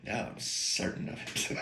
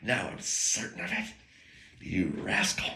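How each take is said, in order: First: Doc Holliday. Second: Soft, unvoiced gunslinger line; whispered cool menace; Doc Holliday. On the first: Retold or imitated. Quoting Val Kilmer's Doc Holliday, a soft whispery gunslinger line. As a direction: breathe it out like a cool gunslinger. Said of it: "I had a Val Kilmer moment, Doc Holliday moment". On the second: Quoting the movie line again, soft and whispered. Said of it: "I had a Doctor Reed moment".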